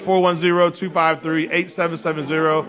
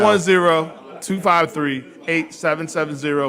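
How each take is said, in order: First: The number is said at normal speed. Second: The number is said slowly.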